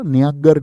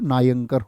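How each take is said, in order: First: It begins 'nyan' and has a g sound. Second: It begins 'naa-yan' and has a k sound. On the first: The speaker calls it wrong. "न्यांगर नहीं होता" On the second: The speaker calls it right. "नायंकर होता"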